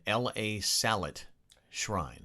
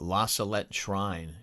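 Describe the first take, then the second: First: La is spelled out as letters L, A. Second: La is said as a single word. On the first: The speaker calls it wrong. "she said" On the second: The speaker calls it right. "instead of saying"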